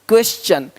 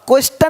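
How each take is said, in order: First: The t is pronounced as ch. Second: The t is pronounced as a plain t. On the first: The speaker calls it right. "टी का उच्चारण चा होता है" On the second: The speaker calls it wrong. "अब क्वेश्चन नहीं बोलते"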